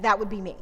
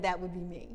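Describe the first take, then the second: First: That would be me said louder and firmer; firm assertion. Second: Said in the usual way. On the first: Shown as a demonstration. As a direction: stand your ground on that.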